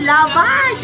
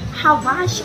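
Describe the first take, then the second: First: The word begins with an L sound. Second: The word begins with an H sound. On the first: The speaker calls it right. "Ito pala ay lavash" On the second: The speaker calls it wrong. "sabi ko pa man din ay habash"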